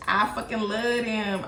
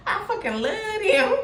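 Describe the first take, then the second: First: Said in the usual way. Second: High, laughing rush of delight; laughing gush. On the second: Real, not acted. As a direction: squeal it through laughter. Gushing over the King of Cups card.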